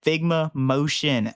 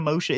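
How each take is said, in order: First: "Figma Motion" said slowly and clearly; careful pronunciation. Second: "Motion" said hastily and garbled; mispronounced Motion. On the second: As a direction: blurt "Motion" quickly and slightly off. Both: Shown as a demonstration. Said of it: "It's not Motion".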